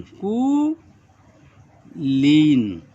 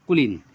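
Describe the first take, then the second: First: कुलीन stretched very slowly, syllable by syllable; slow dictation कुलीन; drawn out word. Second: Said in the usual way. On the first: Shown as a demonstration. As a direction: hold every sound of कुलीन for the students. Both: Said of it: "कु के लिए".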